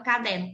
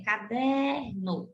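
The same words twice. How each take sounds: First: Said in the usual way. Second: Caderno very slowly, DER held long; stressed penultimate syllable. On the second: Shown as a demonstration. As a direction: stretch the middle of caderno, ca-DEEER-no. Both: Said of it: "Da mesma maneira".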